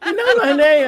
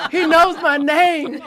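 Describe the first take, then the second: First: Giddy laughing delight. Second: Higher, louder slow laughing squeal; giddy laughing delight. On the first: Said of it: "And I was". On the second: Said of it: "And I was like". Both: Retold or imitated. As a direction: laugh it out star-struck.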